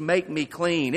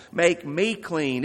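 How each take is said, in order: First: "make" leaned on, "me clean" falling away; "make me clean" with weight on "make"; stress on MAKE. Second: Slow "Make me clean" with "me" leaned on; "me" stressed, slow and pleading. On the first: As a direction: hit the word "make". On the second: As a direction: press on "me", it's personal. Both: Shown as a demonstration. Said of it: "It was personal".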